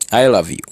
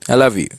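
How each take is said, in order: First: The stress falls on the word I. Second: The stress falls on the word love. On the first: It is the speaker, not someone else, who loves. "You want to emphasize that it's you who love that person" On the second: The feeling is love, not something else. "you want to emphasize that your love for that person"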